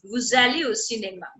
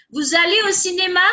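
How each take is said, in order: First: Said in the usual way. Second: "Vous allez au cinéma" higher and quicker, lifted into a question; questioning intonation. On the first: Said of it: "is a normal sentence". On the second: Shown as a demonstration. Teacher showing students how a question differs from a statement, questioning intonation. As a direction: ask "Vous allez au cinéma" with pitch raised through to "cinéma". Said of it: "do the intonation in the question".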